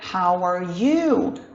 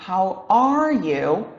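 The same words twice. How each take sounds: First: The stress is on the word you. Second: The stress is on the word are. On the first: "Colocando a ênfase aqui no you" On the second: "colocar ênfase aqui no are"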